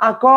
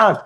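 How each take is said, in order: First: "আক" in due sillabe, aa-kooo; vocale finale aggiunta. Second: "আঁক" in una sola sillaba, aak; consonante finale muta. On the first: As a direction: allunga una O dopo la K di "আক". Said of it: "তা আপনি কি এটা উচ্চারণ বলেন". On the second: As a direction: chiudi "আঁক" sulla K, senza vocale dopo. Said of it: "এটা লাস্টে কিন্তু হর্ষন্ত আছে". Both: Shown as a demonstration.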